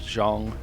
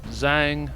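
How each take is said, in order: First: The name is said with a native-like sound. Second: The name is said with an anglicized sound. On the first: The speaker calls it right. "It's more like Zhang" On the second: The speaker calls it wrong. "I apparently have been pronouncing that wrong"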